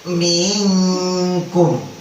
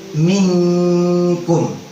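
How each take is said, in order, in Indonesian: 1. Vokal pertama dipanjangkan sebelum bunyi sengau. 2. Vokal pertama pendek, langsung masuk ke bunyi sengau. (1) "Jangan, jangan, jangan dibaca begitu" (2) "Langsung lagi masukin buru-buru ke dalam huruf nunnya, nggak boleh telat"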